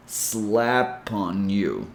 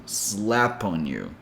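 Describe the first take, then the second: First: Very slow "Slap on you", P carried to "on"; slow "sla-pon you"; drawn-out linking demo; slow linked demo. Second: Slow "slap on you" with the P joined to "on"; softer linked repeat; linked demo. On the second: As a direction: join "slap on you" smoothly. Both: Shown as a demonstration. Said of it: "bringing that sound to the next word".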